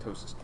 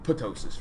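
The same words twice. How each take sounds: First: The initial p is silent. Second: The initial p is sounded. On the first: The speaker calls it right. "It's just ptosis" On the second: The speaker calls it wrong. "I don't think you call that ptosis"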